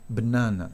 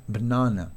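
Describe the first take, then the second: Both takes have the same delivery.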